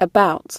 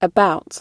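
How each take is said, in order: Both takes have the same delivery.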